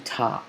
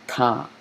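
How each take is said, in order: First: Ta with an ordinary English T; plain English T. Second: Ta with the tongue touching the teeth; soft dental T in Ta. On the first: Teacher showing students how not to say Ta, plain English T. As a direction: say Ta with the tongue off the teeth. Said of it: "notice how I'm not saying Ta". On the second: Teacher showing the right Arabic Ta, tongue on teeth. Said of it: "I'm touching the tongue". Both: Shown as a demonstration.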